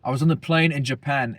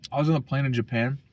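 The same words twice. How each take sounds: First: Lightly put-on British accent; jokey, half-hearted British voice; mock British accent. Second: Said in the usual way. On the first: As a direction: retell it with a hint of British. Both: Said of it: "I look British, bro. Hey, bruv".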